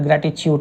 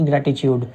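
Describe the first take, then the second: First: The word is said with a clear t sound. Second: The word is said without the t sound. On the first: The speaker calls it right. "ट sound होता है" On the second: The speaker calls it wrong. "ना कि"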